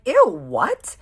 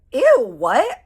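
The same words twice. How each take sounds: First: High, loud grossed-out ew; disgusted surprise. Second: High, loud shocked ew; disgusted surprise. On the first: Telling her friend she is appalled, loud disgusted squeal. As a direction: recoil in shocked disgust. Reacting to kiss story. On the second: Friend hearing gross news in the bathroom, loud disgusted squeal. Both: Retold or imitated.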